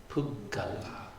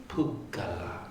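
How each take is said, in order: The two takes are said the same way.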